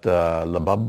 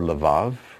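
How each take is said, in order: First: The word is said with B sounds. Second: The word is said with V sounds. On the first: "they're the ones who give us our B sounds" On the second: "They can also be pronounced as a V"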